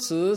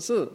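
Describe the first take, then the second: First: The pitch rises from mid to high. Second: The pitch falls sharply from high. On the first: "Four tones of Mandarin" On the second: "Four tones of Mandarin"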